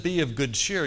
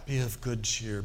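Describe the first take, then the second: First: Said in the usual way. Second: Put-on lower, solemn old-Bible reading; King James style. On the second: Shown as a demonstration. Preacher hamming up King James English for the congregation, solemn and lower. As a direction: make it sound religious, like King James English. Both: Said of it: "you can make that real King Jamesy".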